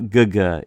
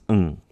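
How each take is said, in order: First: It is said with a hard g sound. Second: It is said as a nasal ng sound. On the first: The speaker calls it wrong. "Here it's not guga" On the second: The speaker calls it right. "It's ng"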